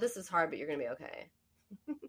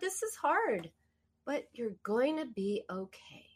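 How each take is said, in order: First: The voice sounds flat and cold. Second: The voice sounds warm and soothing. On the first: The words offer little real comfort. The speaker calls it wrong. "Not so much" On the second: The words offer real comfort and care. The speaker calls it right. "A soothing tone is like a verbal hug"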